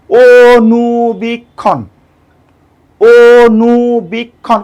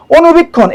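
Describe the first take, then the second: First: অনুবীক্ষণ very slowly as "o-nu-bik-khon"; syllable by syllable. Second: Said in the usual way. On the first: Shown as a demonstration. Teacher counts syllables, অনুবীক্ষণ slowly drawn out. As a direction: hold each of the four beats of অনুবীক্ষণ. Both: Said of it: "আপনি just উচ্চারণ করেন".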